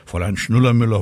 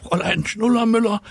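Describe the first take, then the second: First: Said in the usual way. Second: High, excited pupil's cry; schoolboy calling out. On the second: A narrator's reading. Mirko alerting his teacher, calling out high. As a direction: call urgently to the teacher in a high voice. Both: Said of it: "Mirko Rübel rief".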